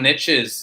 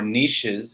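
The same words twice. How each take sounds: First: The word is given an English pronunciation. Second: The word is given a French pronunciation.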